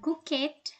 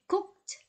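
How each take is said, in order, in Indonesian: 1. Akhiran -ed diucapkan sebagai suku kata tambahan. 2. Akhiran -ed tidak menambah suku kata. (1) "bukan cooked" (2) "tapi cooked"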